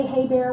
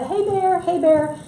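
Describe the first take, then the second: First: Said in the usual way. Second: Higher-pitched sing-out call to a bear. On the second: Acted. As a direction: call out as if warning bears off. Acts calling out to bears.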